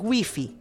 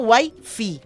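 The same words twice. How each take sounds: First: It is pronounced with Spanish vowels, like 'wee-fee'. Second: It is pronounced with English vowels, like 'why-fie'. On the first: "Y en español es Wi-Fi" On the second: "entonces sería Wi-Fi en inglés"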